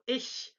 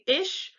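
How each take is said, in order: First: The word ends in a whistled, breathy hiss. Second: The word ends in a plain English sh sound. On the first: "tongue to the roof of your mouth and try to exhale like you're whistling" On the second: "try to say ish, but instead of saying ish"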